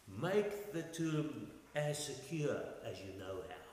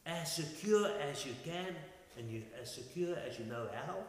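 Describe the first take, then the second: First: Slow, measured sarcasm; sarcastic. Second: Puzzled echo, rising into a question; bewildered. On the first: Pilate to those asking for a tomb guard, sarcastic. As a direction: lay on dry sarcasm, taking your time. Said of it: "Do you hear the sarcasm there?". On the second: Men glancing at each other after Pilate's order, bewildered. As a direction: repeat it as if baffled by the order. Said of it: "bewildered and puzzled". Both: Retold or imitated.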